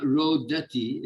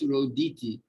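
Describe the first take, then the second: First: Rodati with a plain a in the middle, ro-DA-ti; wrong vowel. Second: Roditi with a short i in the middle, ro-DI-ti; correct form. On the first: Teacher showing the wrong form Rodati. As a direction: say Rodati the mistaken way, slowly, with a in the middle. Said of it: "it's Roditi". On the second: Teacher giving the correct form Roditi. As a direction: say Roditi the right way, i not a. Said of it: "it's not Rodati". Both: Shown as a demonstration.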